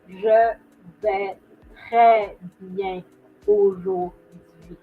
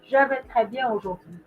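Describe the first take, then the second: First: It is said slowly with every sound over-articulated. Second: It is said quickly with sounds run together. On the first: It is the careful version for learners. "I know I'm exaggerating in the pronunciation" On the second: It is how it is naturally said. "I'm obviously saying it a lot faster, not as much pronunciations"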